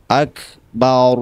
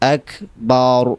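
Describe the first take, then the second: No difference in how they are said.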